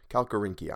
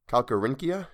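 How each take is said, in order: First: Calcarynchia. with a falling tune; decided Calcarynchia; settling on the word. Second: Calcarynchia? tried with a rising questioning tune; unsure try at Calcarynchia?; trying out the word. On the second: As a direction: test the word Calcarynchia? with an uncertain rise. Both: Shown as a demonstration. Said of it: "I'm gonna go with Calcarynchia".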